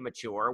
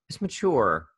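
First: The middle consonant is a ch sound. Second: The middle consonant is a plain t sound. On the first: It is the everyday way most people say it. "You hear us say mature" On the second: It is a pronunciation heard from some people, felt as affected. "Did you say mature like with not cha but ta?"

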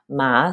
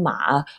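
First: It is said with the second tone. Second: It is said with the third tone. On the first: "second tone" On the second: "And the third one"

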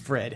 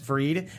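First: The vowel is a short 'i' sound. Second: The vowel is a long 'ee' sound. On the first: This is how the name is meant to be said. The speaker calls it right. "but it's Frid" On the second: A family member says the name this way. The speaker calls it wrong. "She admitted that her sister says Freed"

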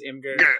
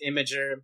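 First: The word is pronounced the way it looks spelled. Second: The word is pronounced unlike its spelling suggests. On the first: The speaker calls it wrong. "I call it Imgur because it looks like it says Imgur" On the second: The speaker calls it right. "but it's actually pronounced Imgur"

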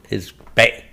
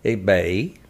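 First: The tone is low and cut short. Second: The tone dips down and then rises. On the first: "if they have a dot underneath it" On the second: "it has a circle line, like, above it"

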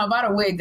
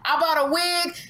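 First: It is said in a plain, ordinary speaking voice. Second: It is said in a loud preacher-like voice. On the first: The line falls flat as a joke. The speaker calls it wrong. "if I say it like this" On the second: The line is delivered to get a laugh. The speaker calls it right. "did you say it in that preacher voice? That was really loud"

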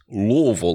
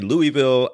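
First: The name is mumbled, with sounds run together. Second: The name is said clearly, with distinct syllables. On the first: "which apparently is how you say it, Louisville, like you got a mouthful of marbles" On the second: "Some folks say Louisville"

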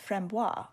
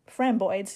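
First: It is said with a French-style ending. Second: It is said with a Brooklyn accent.

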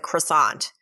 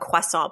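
First: The word is said with an American pronunciation. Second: The word is said with a French pronunciation. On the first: "in New York it's a croissant" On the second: "the French call it a croissant"

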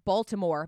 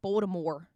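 First: It is said in a standard, neutral accent. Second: It is said in a local Baltimore twang. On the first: "but it's Baltimore" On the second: "but they say it like Baltimore"

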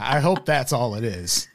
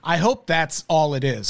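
First: It is said in a natural, ordinary voice. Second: It is said in an exaggerated, put-on voice.

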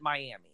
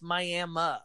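First: It is pronounced like the Florida city's name. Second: It is pronounced the local Oklahoma way. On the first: This is how outsiders say the town's name. The speaker calls it wrong. "everyone that's not from Oklahoma pronounces it Miami" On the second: This is how locals say the town's name. The speaker calls it right. "no, it's Miami"

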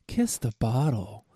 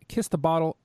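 First: It is read in a sultry voice. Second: It is read in a plain voice.

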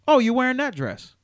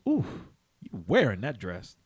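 First: It sounds innocent and plain. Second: It sounds like a flirtatious old man.

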